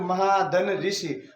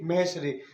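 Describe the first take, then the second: First: The two parts are said as separate words. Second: The two parts are merged into one word. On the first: "जब हम ऐसे बोलते हैं अलग अलग" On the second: "इसलिए हम इनमें संधि करेंगे"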